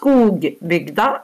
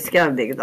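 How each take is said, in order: First: The first syllable is said as written, skog. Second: The first syllable is said as skau. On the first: This is only how the name is written. The speaker calls it wrong. "Det skrives Skogbygda" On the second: This is how the name is actually said. The speaker calls it right. "heter Skaubygda"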